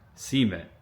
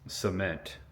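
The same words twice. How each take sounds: First: It is said with a rural Ohio Valley accent. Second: It is said with standard pronunciation. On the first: "the way my grandpa would have said it... Ohio River Valley accent" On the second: "I said it the correct way"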